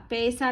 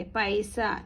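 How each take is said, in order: First: पैसा misread with "ay" in the first syllable, "pay-sa"; mispronunciation demo. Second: पैसा with an "ai" glide, "pai-sa"; correct pronunciation. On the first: Teacher warning learners off a misreading, पैसा as "pay-sa". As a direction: show the wrong reading of पैसा as "pesa". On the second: Teacher correcting the misreading, पैसा as "pai-sa". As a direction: open the first vowel of पैसा into "ai". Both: Shown as a demonstration. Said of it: "पैसा नहीं पढ़ेंगे".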